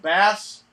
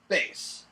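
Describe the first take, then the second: First: The vowel sounds like the one in 'cat'. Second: The vowel sounds like the one in 'face'. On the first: It names the fish. "As opposed to bass" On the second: It names the musical instrument. "They changed it to what we all now know as bass"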